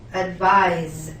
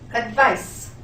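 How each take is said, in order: First: The word ends with a buzzing z sound. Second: The word ends with a hissing s sound. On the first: It names the action of recommending. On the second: It names the thing, a recommendation.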